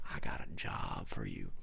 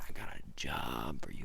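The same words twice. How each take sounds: First: Much lower, gruff offer; deep Santa voice. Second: Low whispered mock Santa; low whispered offer. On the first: Retold or imitated. Santa offering the storyteller a job, deep. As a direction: drop into a deep mock Santa. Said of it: "He said". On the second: Santa repeating his job offer, whispered low. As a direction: hush it low like a secret deal. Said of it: "And he said".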